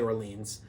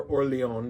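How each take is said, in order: First: Orleans said English-style as "or-LEENZ"; anglicized pronunciation. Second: Orleans said French-style as "or-lay-OHN"; French-style pronunciation. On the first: Host giving their own way to say it, Orleans as "or-LEENZ". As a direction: say Orleans with a long "ee" and a final z. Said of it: "I say Orleans". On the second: Host offering the other way to say it, Orleans as French "or-lay-ON". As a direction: say Orleans the French way, ending in a nasal "-on". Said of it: "depending on how you say it". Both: Shown as a demonstration.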